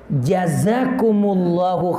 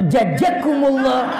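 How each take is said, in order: First: The second consonant is a z sound. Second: The second consonant is a j sound. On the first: The speaker calls it right. "Tuh ustaz beneran tuh" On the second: The speaker calls it wrong. "Jangan dikata jajakumullah"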